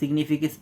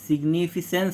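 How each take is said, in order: First: The c before -ance sounds like k. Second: The c before -ance sounds like s. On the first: The speaker calls it right. "सी को हमने यहाँ पे क्या पढ़ा है, क" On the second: The speaker calls it wrong. "वो क होगा ही नहीं"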